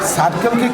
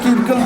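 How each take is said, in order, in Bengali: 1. শব্দটি 's' ধ্বনি দিয়ে শুরু হয়। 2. শব্দটি 'k' ধ্বনি দিয়ে শুরু হয়।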